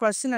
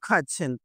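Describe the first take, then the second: First: The middle consonant is a plain 'sh' sound. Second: The middle consonant is a 'ch' sound. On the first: The speaker calls it wrong. "క్వెషన్ క్వెషన్ అంటారు" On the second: The speaker calls it right. "చా పలకాలి"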